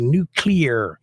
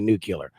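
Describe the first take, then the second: First: The word is said with strained, twisted articulation. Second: The word is said in an easy, relaxed way. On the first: It is hard for the speaker to say it this way. "You see how my mouth went all twisted and distorted?" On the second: This is how the speaker normally says it. "That's why I say nuclear"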